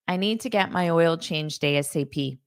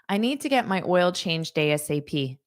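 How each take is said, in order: Both takes have the same delivery.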